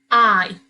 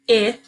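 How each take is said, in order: First: The vowel is said like its letter name. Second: The vowel is said with its short sound. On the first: "then say the long sound" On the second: "say the short sound"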